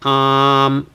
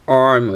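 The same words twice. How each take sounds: First: The word is said without an R sound. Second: The word is said with an R sound. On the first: The speaker calls it right. "it's just arm uh, without R" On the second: The speaker calls it wrong. "it's not arm"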